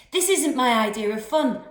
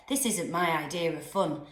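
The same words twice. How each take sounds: First: Louder, higher, laughter breaking through; cracking up laughing. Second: Said in the usual way. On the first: A narrator's reading. Boy in a canoe cracking up, laughing. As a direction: say it while losing it to giggles. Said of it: "cracking up laughing". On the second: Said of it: "I said, paddling hard".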